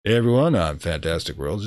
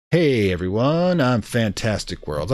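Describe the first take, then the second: First: Hot greeting. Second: Slow, mock-mystical intro; mystic greeting. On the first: Pretend. Streamer greeting the diner with the hot option, mock-flirty. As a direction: purr it like a smooth charmer. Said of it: "we have to use the hot option here". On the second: Streamer greeting the diner with the mystic option, slow and mock-mystical. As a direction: intone it like a mysterious seer. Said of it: "the mystic option".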